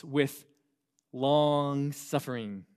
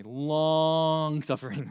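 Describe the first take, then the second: First: Long suffering stretched slowly; drawn out. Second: Long suffering stretched very slowly and a bit louder; drawn out. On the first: Pastor reading verse, drawing out long suffering. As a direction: draw out long suffering, each syllable slow. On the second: Pastor repeating the phrase to teens, drawn out. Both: Shown as a demonstration. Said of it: "I say it like that intentionally".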